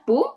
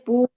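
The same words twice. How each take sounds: First: The vowel u is short. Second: The vowel u is long. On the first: The speaker calls it wrong. "it's not Pu" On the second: The speaker calls it right. "because again you on you there is a line"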